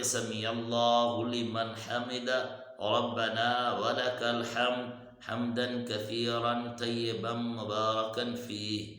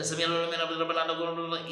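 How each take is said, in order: First: Slow, clear سمیع اللہ لمن حمدہ; unhurried recitation with clear sounds; slow and careful. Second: سمیع اللہ لمن حمدہ gabbled fast and higher; mock careless fast mumble; rushed wrong way. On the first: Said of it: "آرام سے پڑھنا ہے". (آرام سے صاف تلفظ) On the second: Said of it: "اسی طرح نہیں پڑھنا". (جلدی جلدی غلط تلفظ) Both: Shown as a demonstration.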